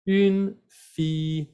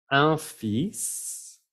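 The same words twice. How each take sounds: First: "Une fille" slowly, higher, "ün" then long "fee"; feminine article. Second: "Un fils" with nasal "un", rising "feess"; masculine article. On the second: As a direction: sound the S in "Un fils", tune rising. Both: Shown as a demonstration. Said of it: "cuidado con el artículo".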